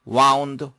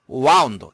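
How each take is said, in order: No difference in how they are said.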